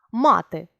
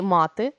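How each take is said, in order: First: Мати with stress on the first syllable, МА-ти; teacher says мати as the noun, stressing the first syllable. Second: Мати with stress on the last syllable, ма-ТИ; teacher says мати as the verb, stressing the last syllable. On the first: Teacher demonstrating the noun мати, first syllable stressed. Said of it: "мати різний наголос". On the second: Teacher demonstrating the verb мати, last syllable stressed. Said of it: "мати як дієслово". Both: Shown as a demonstration.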